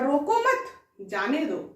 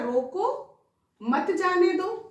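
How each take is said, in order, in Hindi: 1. 'mat' के बाद विराम है। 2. 'roko' के बाद विराम है। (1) "यही कॉमा यहां से हटाकर यदि यहां लिख दिया" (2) "यदि कॉमा लगा दिया"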